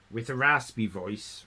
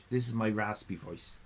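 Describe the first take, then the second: First: Said in the usual way. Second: "This is my raspy voice" said lower and softer with rasp; a low raspy voice that shows itself off. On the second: Shown as a demonstration.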